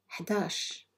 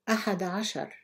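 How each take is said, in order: First: It is said in a short, contracted form. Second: It is said in the full, long form. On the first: This is the everyday dialect form. "then say it in Algerian Arabic" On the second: This is the formal standard form. "I will read each number in Fusha Arabic"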